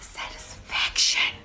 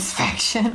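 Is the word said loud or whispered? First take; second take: whispered; loud. First: The word is whispered softly. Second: The word is said loudly and forcefully. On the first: "Why are you whispering when you say it?" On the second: "You said it louder, okay"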